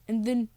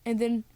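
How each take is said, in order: Both takes have the same delivery.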